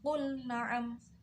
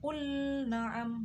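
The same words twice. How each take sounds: First: The l is pronounced clearly before the n. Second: The l is merged into the following n. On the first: The speaker calls it right. "jadi dibaca jelas qul na'am" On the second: The speaker calls it wrong. "jadi tidak dibaca qul na'am"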